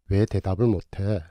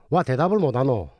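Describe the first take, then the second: First: It is spoken in standard Seoul Korean. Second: It is spoken in a Busan dialect accent. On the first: "이 대화를 표준어로 해서" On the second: "부산말로 바꾸어 놓으면"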